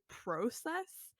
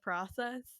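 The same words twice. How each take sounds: First: It is said with a Canadian pronunciation. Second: It is said with an American pronunciation.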